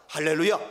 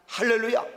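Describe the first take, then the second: First: Hallelujah call. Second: Loud hallelujah call. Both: Real, not acted.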